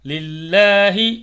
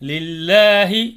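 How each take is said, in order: The two takes are said the same way.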